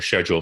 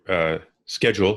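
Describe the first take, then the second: First: Schedule is said the Canadian way. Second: Schedule is said the American way.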